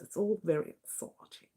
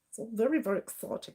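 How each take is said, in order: First: It is said in the speaker's normal voice. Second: It is said in a put-on posh voice.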